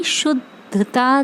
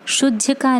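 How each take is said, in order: First: Slow शुद्धता with clear त; correct pronunciation. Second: शुद्धका with a k sound; the pupils' mistake शुद्धका; wrong pronunciation. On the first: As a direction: stress the त in शुद्धता. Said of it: "शुद्धका नहीं, शुद्धता देना". (धीरे, साफ़ त वाला शुद्धता) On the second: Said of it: "शुद्धका नहीं". (ग़लत उच्चारण शुद्धका) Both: Shown as a demonstration.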